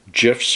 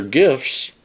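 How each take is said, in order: First: "gifs" with a soft G, like J; soft-G pronunciation. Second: "gifs" with a hard G, as in gift; hard-G pronunciation. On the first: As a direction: say "gifs" as "jifs". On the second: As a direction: say "gifs" starting like "give". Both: Shown as a demonstration. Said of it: "gifs or gifs".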